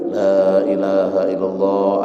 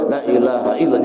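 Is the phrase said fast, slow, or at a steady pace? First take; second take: steady; fast. First: It is said at a steady, moderate pace. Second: It is said quickly and hurriedly. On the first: The speaker calls it right. "Jangan terlalu cepat, jangan terlalu lambat. Stabil" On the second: The speaker calls it wrong. "Jangan pula. Elak laju"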